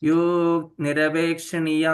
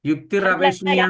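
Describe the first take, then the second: First: The first word is a short clipped yuk. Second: The first word is yuktir, ending in r. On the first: The speaker calls it right. "എന്നാണ് വായിക്കുന്നത്" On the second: The speaker calls it wrong. "എന്നല്ല"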